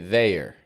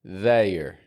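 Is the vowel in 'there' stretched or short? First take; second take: stretched; stretched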